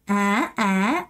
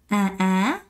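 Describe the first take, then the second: First: Both syllables rise in pitch. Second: The first syllable drops in pitch. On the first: The speaker calls it right. "아 하고 올라가야 돼요" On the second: The speaker calls it wrong. "갑자기 앞에 음을 내려요. 그러시면 안 됩니다"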